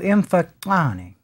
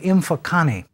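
First: The word is said with a click sound. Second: The word is said without a click sound. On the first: The speaker calls it right. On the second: The speaker calls it wrong.

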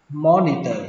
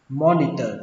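The two takes are said the same way.

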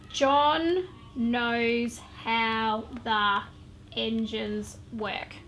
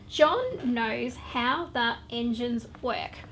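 First: It is read in a choppy, halting way. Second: It is read smoothly without breaks.

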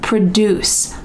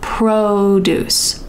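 First: The stress is on the second syllable. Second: The stress is on the first syllable. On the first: It means to make something. "Here the emphasis is at the end" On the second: It names fruits and vegetables. "The emphasis is at the beginning"

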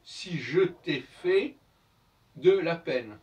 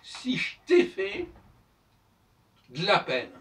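First: Every syllable is pronounced fully and separately. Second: Sounds are dropped and run together in speech. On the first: This is how it is written. "en écrit" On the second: This is how it is spoken. "En langage oral"

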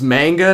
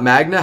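First: The n sound comes before the g. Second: The n sound comes after the g. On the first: The speaker calls it right. "It's manga" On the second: The speaker calls it wrong. "not magna. Have I been saying it wrong this whole time?"

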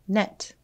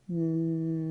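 First: The word is said quickly, as one smooth unit. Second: The word is stretched out slowly, sound by sound. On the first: "Now let's say it fast like a word" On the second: "Tap and stretch it for me. Stretch out your sounds"

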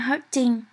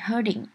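First: The word is said heavily and forcefully. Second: The word is said lightly and softly. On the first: The speaker calls it wrong. "Nó rất là nặng" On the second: The speaker calls it right. "Nhưng mà mình nói hurting"

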